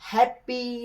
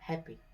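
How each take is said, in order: First: The middle p sound is doubled and held. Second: The middle p sound is single and short. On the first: The speaker calls it wrong. "हैप्पी नहीं बोलते हैं" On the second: The speaker calls it right. "डबल sound English में निकालना ही नहीं"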